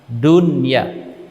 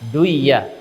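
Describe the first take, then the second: First: The n is kept clear before the y. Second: The n merges into the following y sound. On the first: The speaker calls it right. "Akan tetapi kita membacanya dengan dunya" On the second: The speaker calls it wrong. "tidak bisa dibaca dengan duiya"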